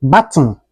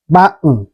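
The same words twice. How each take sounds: First: BUTTON with the T released before N; T fully pronounced. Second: BUTTON with a catch for the T, "bu'n"; swallowed T. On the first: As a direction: say "button" with an audible T. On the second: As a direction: say "button" American style, swallowing the T. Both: Shown as a demonstration. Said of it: "is pronounced like".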